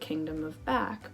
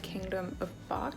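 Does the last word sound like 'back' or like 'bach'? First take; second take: back; bach. First: The last word sounds like the word back. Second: The last word sounds like the composer's name. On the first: The title refers to things being backwards. The speaker calls it right. "because everything there is backwards" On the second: The title refers to the composer. The speaker calls it wrong. "I realized that I was saying it wrong"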